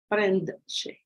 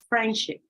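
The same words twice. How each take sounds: First: The D sound is pronounced. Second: The D sound is left out. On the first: This is formal speech. "Informal speech" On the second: This is casual speech. "You don't say friendship"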